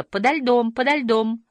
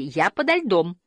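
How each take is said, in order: First: High, ringing echoed call; held-up pitch, echo bouncing back. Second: Mild, contained call; understated shout from below. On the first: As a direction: repeat it evenly like an echo. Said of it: "эхо повторило". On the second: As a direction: call out where you are. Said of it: "закричала Туутики". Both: A narrator's reading.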